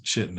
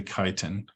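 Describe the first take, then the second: First: CHITIN as CHIT-in, ch as in chip; students' mispronunciation. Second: CHITIN as KY-tin, opening on a k; correct pronunciation. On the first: Retold or imitated. Lecturer quoting students who missed class, mispronounced. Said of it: "they would pronounce it chitin". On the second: Shown as a demonstration. Lecturer correcting the students' misreading, correctly pronounced. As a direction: say chitin with a long i, "KAI-tin". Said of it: "it's actually chitin".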